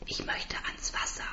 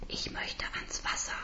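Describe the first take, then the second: First: Tonloses Flüstern; geflüstert. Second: Drängendes, tonloses Flüstern; flüstere es nachdrücklicher; eindringlich geflüstert. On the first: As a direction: hauche den Wunsch. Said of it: "sage ich". (flüsternd) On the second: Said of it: "wiederhole ich etwas eindringlicher". (eindringliches Flüstern) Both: Acted.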